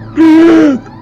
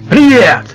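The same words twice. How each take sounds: First: It is said in a put-on voice for Sanya. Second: It is said in the speaker's natural voice.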